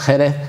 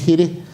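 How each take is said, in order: First: The vowels are pronounced open. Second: The vowels are pronounced closed. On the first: This is how it is said in western Andalusia. "lo que aquí decimos Jerez, en Jerez, ¿eh? con las vocales abiertas" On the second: This is how it is said in the town itself. "en Jerez dicen Giris, y con la vocal media más cerrada"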